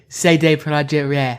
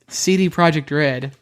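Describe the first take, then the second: First: The name is said with put-on foreign pronunciation. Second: The name is said with plain English pronunciation.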